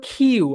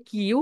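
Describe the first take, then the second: First: "কিউ" with a strongly aspirated kh start; corrected Q. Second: "কিউ" with an unaspirated k; usual local Q. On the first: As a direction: model "কিউ" as a long, breath-puffed "khiu". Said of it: "এটাকে বলো কিউ". (জোরে, শ্বাস দিয়ে "খিউ"-র মতো "কিউ") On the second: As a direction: say "কিউ" the local way, without a puff of air. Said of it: "আমরা বলি কিউ". (দেশি উচ্চারণে হালকা ক দিয়ে "কিউ") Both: Shown as a demonstration.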